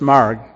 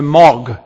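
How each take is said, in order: First: The name is said with a clear R sound. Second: The name is said with no R sound. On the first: The speaker calls it right. "I say Marg with an R" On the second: The speaker calls it wrong. "because she didn't pronounce the R"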